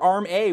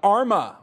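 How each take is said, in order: First: It ends in the letter name 'A'. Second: It ends in a weak 'uh' sound. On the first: "it's a capital A. You got to say A" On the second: "I like Arma because it sounds kind of like DARPA"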